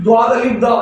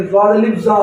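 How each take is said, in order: First: द्वाद अलिफ दा with d sounds; Arabic-style d in द्वाद and दा; Arabic spelling-out. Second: ज्वाद अलिफ जा with z sounds; Urdu-style z in ज्वाद and जा; Urdu spelling-out. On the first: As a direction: spell it aloud as द्वाद अलिफ दा, d in first and last word. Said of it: "अगर हम अरबी में इसको पढ़ें". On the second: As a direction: spell it aloud as ज्वाद अलिफ जा, z in first and last word. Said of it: "इसको उर्दू में पढ़ें". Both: Shown as a demonstration.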